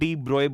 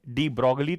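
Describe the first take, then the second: First: The surname ends in a 'broy' sound. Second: The surname is said with a 'glee' ending. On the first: This is how the name is actually said. "Actual में डी ब्रोए बोला जाता है" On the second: This is how the name is commonly said locally. "Hindustani culture के हिसाब से"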